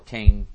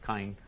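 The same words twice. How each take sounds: First: The name is said with English pronunciation. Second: The name is said with Hebrew pronunciation.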